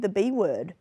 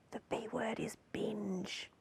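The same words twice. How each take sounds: First: Said in the usual way. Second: Slow, hushed whisper; mock-secret whisper. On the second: News host leaking the banned word to viewers, mock-secret whisper.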